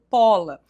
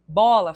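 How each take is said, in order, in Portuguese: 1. A primeira consoante é surda, um som de p. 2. A primeira consoante é sonora, um som de b. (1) "falo pola" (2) "Em vez de bola"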